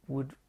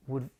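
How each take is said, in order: Both takes have the same delivery.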